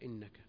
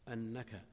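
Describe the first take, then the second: First: The word begins with an 'i' vowel. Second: The word begins with an 'a' vowel. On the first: It starts a conditional clause. "وجاء بكسرها إنك" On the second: It gives the reason for what was said. "مضبوطا بالهمزة المفتوحة"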